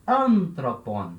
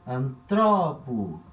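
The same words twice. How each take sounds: First: Anthropon slow, AN long and strong; ANthropon, accent three syllables from the end; stress on first syllable. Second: Antropo drawn out slowly, stress on TRO; slow anTROpo, accent on the middle syllable; stress moved to second syllable. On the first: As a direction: punch and stretch AN in Anthropon. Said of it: "o acento na terceira sílaba". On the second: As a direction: stretch and punch TRO in Antropo. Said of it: "Acento agora andou uma sílaba pra frente". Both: Shown as a demonstration.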